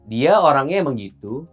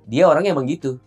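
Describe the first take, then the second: First: The voice stays level as if continuing. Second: The voice falls to a final stop at the end. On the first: More is still to come. "Kalau kalau koma" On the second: The statement is complete. "yang titik dulu ya"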